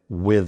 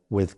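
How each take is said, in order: First: The th sound is voiced, with vocal buzz. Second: The th sound is unvoiced, with only air. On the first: "many Americans use the voiced T H" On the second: "the unvoiced T H is more common"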